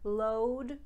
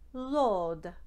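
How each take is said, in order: First: It is said in a plain English accent. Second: It is said in an Italian accent.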